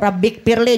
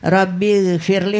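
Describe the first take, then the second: First: A plain k sound begins the second word. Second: A throaty gh sound begins the second word. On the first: My Lord, make me an unbeliever. The speaker calls it wrong. "jadi huruf kaf" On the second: My Lord, forgive me. The speaker calls it right. "huruf gain"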